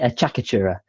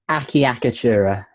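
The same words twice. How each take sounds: First: Some syllables of the word are reduced or dropped. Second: Every syllable of the word is clearly pronounced. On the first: "because I think it sounds better" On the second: "which is better phonetically speaking because it, it, you hear all the syllables"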